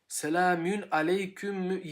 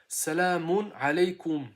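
First: The vowels are front, like Turkish ü. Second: The vowels are back, like plain u. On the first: The speaker calls it wrong. "Selamün aleyküm yok" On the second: The speaker calls it right. "Selamun aleykum diyorlar"

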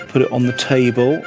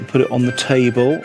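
Both takes have the same delivery.

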